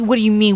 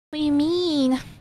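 First: It sounds defensive, with an attitude. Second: It sounds meek and unsure.

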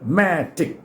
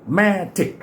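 Both takes have the same delivery.

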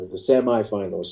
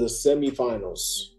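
First: The word is said in an American way. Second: The word is said in a non-American way.

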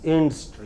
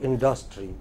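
First: The stress falls on the standard main syllable. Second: The stress falls where Indian speakers tend to. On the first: The speaker calls it right. "The main stress is here, not here" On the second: The speaker calls it wrong. "We in India have a tendency to stress it here. It's not here. It is not industry"

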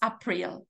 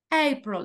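First: The stress falls on the second syllable. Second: The stress falls on the first syllable. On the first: The speaker calls it wrong. "Pero no decimos April" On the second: The speaker calls it right. "April, la primera"

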